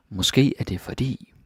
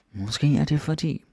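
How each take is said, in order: First: Said in the usual way. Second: Måske er det fordi lifted high in a changed voice; higher, marked repeat. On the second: Shown as a demonstration. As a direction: say it up high to highlight the inversion. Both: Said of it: "And there's inversion".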